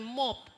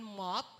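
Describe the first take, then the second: First: The vowel is a plain rounded O sound. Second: The vowel sounds between A and O. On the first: "hindi natin sinasabing" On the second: "na parang ang tunog ng O, uh, gitna ng A saka O"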